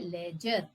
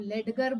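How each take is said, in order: First: A single soft j sound in the middle. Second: A hard d and g sound in the middle. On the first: The speaker calls it right. "इसको कहते हैं लेजर" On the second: The speaker calls it wrong. "अगर आप इसको लेडगर बोल देंगे तो ये बिल्कुल भी सही नहीं है"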